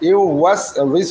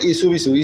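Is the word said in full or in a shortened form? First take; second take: full; shortened. First: The word is said in full, every syllable clear. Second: The word is said in a shortened, clipped form. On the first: The speaker calls it right. "আমরা এটাকে সঠিকভাবে উচ্চারণ করব" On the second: The speaker calls it wrong. "অনেকে পড়ে ইসু বিসু, ইসু বিসু পড়া যাবে না"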